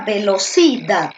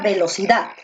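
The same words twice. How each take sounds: First: The stress is on the third syllable. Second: The stress is on the last syllable. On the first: The speaker calls it wrong. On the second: The speaker calls it right.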